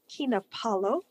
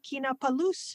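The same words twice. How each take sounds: First: It is said with a mock Italian pronunciation. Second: It is said with a French-sounding pronunciation. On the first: Something is there on the stick. "in a kind of mock Italian" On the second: Someone has not read something. "you're adding loose onto the end of things"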